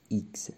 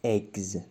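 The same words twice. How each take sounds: First: ایگز said as ee-gz, softer; right eggs. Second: Eggs said slowly the wrong way, as eggs with a long e; drawn-out wrong eggs. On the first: Teacher giving students the right ایگز, softer. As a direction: say ایگز with an ee sound. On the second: Teacher showing students the wrong eggs, slow. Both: Shown as a demonstration. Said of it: "eggs نه".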